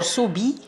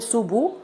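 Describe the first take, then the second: First: The b is followed by an i vowel. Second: The b is followed by a rounded u vowel. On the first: "Subi by lowering the jaw" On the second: "You shouldn't circle the lips to form Dhamma"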